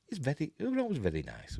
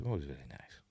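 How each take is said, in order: First: Said in the usual way. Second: Whisper. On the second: Real, not acted. Repeats the compliment in a whisper.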